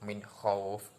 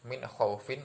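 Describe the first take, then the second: First: The last word stops on a lengthened vowel. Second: The last word ends with a short -in. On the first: "panjang seperti itu" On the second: "yang awalnya dibaca"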